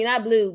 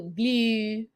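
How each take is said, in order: First: Said in the usual way. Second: Blue drawn out in a softer Baltimore accent; Baltimore-style blue. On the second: Shown as a demonstration. Mocking how Baltimore folks say blue, drawn out softly. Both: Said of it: "Oh, excuse me, not blue, blue".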